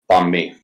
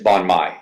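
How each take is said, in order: First: The second word rhymes with 'me'. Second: The second word rhymes with 'my'. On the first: The speaker calls it right. "He says it's pronounced like me" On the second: The speaker calls it wrong. "I'm gonna say it's Bon Mai"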